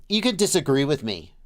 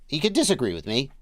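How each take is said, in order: The two takes are said the same way.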